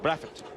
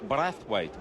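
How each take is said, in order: First: The name is said in a Barbadian pronunciation. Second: The name is said in a general pronunciation. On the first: This is how people from Barbados say the name. "but if you're a Bayesian, it's Brathwaite" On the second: This is how most people say the name. "We we hear, yes, it's Craig Brathwaite"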